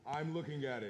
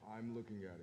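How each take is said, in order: First: It is said louder. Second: It is said at a normal, quiet volume.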